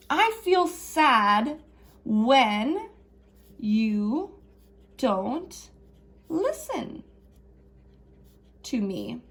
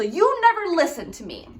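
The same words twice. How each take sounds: First: Slow gentle modeled sentence; calm I message. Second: Higher, blaming tone; high accusing complaint; accusing whine. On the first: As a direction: spell it out gently. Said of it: "So we're gonna say". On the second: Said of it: "What's something that we could say instead". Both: Shown as a demonstration.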